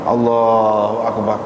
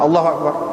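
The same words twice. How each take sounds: First: The phrase is stretched out long and slow. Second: The phrase is said quickly and cut short. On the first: The speaker calls it right. "panjang gitu" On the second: The speaker calls it wrong. "pendek gitu"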